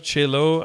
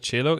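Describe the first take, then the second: First: It is said as 'Che' plus 'lo'. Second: It is said like the instrument, cello. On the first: "I thought it was like Che Guevara" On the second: "because cello is already a thing. That's a fucking instrument"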